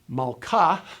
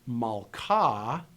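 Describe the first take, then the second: First: The word ends with a breathy h sound. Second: The word ends on a plain open vowel. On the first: It means her king. "with the consonantal hey" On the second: It means queen. "which is just a vowel marker"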